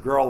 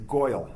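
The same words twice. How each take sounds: First: Said in the usual way. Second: Put-on Brooklyn accent "Goyle". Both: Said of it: "instead of girl, they say Goyle".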